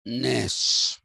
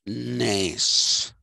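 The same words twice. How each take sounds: First: The vowel is between short and long. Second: The vowel is drawn out long. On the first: The speaker calls it right. "It is Arne Naess. ... somewhere in between that" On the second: The speaker calls it wrong. "and it is not Arne Naess"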